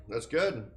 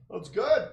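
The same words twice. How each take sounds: First: Said in the usual way. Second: "good" lifted high and rising; that's "good" sung up at the end; sing-song that's good. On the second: Real, not acted. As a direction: tease it upward like praise for a pet. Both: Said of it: "repeated with a lift".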